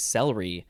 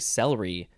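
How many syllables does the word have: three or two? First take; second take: two; two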